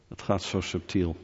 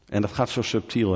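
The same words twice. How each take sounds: First: Softer, lower, almost to yourself; soft repeat. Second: Said in the usual way. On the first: Acted. Preacher warning the congregation about subtle idols, softly. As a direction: repeat it quietly so it lands.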